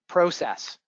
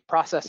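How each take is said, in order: First: It is said with a Canadian pronunciation. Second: It is said with an American pronunciation.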